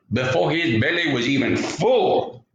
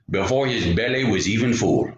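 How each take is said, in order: First: Storyteller's repeat, punching up "full"; stress on full. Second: Said in the usual way. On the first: A narrator's reading. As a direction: lean hard on "full", lifting it. Repeats line for emphasis.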